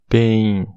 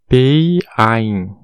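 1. As duas letras vogais dividem um único som, um pouco longo. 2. Cada letra vogal é pronunciada separadamente, palavra mais longa. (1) "Com o dígrafo, PEIN" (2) "Se não tivesse o dígrafo, ia ficar PEIN"

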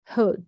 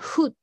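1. 口の奥から言います。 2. カタカナ風に平らに言います。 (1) "この口の奥で言う感じ" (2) "ただのフッドじゃ、うじゃダメなんですよ"

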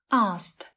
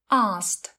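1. Âm k bị lược bỏ giữa s và t. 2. Âm k bị lược bỏ giữa s và t.

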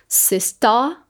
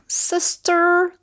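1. O som do R final é omitido. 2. O som do R final é claramente pronunciado. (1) "do inglês britânico, que daí fica tipo um sister" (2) "o R sempre vai ter esse som do R"

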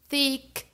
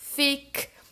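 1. Começa com som de TH. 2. Começa com som de F. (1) "Falei certo" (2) "pronunciar esse TH com um somzão forte de F"

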